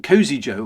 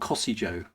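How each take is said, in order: First: The first part sounds like the word 'cozy'. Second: The first part does not sound like 'cozy'. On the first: "as in cozy, as in tea cozy" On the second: "or Cossy, as in I don't know, Cossy"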